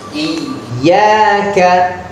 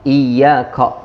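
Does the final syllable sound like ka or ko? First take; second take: ka; ko. First: The last vowel sounds open like a. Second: The last vowel sounds rounded like o. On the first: The speaker calls it right. "Seperti ini" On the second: The speaker calls it wrong. "suka dibaca ko"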